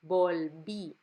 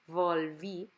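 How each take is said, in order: First: The first sound is made with both lips together. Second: The first sound is made with lip against teeth. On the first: The speaker calls it right. "It sounds like a B. So the lips are together" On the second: The speaker calls it wrong. "nicht volví"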